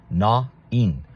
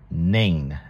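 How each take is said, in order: First: The name is pronounced the Hebrew way. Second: The name is pronounced the common English way. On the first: "in Hebrew, to the best of my knowledge, they pronounce it Na-in" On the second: "as many people in English pronounce it"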